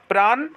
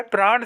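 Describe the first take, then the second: First: प्राण ending in plain n; wrong dental n. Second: प्राण ending in curled-tongue ṇ; correct retroflex n. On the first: Teacher showing students the mistake, plain n. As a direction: say प्राण as "praan", tongue forward. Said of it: "गलत होता है". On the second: Teacher giving students the right form, retroflex n. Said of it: "सही होता है". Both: Shown as a demonstration.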